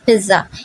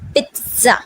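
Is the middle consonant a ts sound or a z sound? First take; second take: z sound; ts sound. First: The middle consonant sounds like a plain z. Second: The middle consonant sounds like ts. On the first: The speaker calls it wrong. "the pronunciation of pizza is not pizza" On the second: The speaker calls it right. "the first Z turn into T sound"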